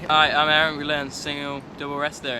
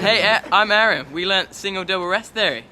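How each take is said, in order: First: It is said in a flat, unexcited tone. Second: It is said in an excited, lively tone.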